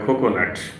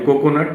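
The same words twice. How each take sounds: First: The first k sound is aspirated. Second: The first k sound is unaspirated. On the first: "তারা বলে" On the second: "আমরা বলি"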